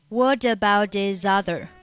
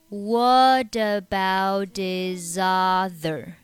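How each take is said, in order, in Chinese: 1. 这个短语是正常语速。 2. 这个短语说得很慢。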